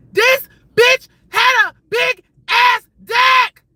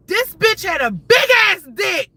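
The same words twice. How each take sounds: First: Slow, high shout with a break after every word; loud, drawn-out, scandalized staccato. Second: High, loud outraged exclamation; loud, scandalized announcement; shocked reveal. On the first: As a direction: punch each word separately at full volume. Repeats it for shocked emphasis. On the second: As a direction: blurt it out loud, pitched right up. Shocked reveal of what she saw. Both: Real, not acted.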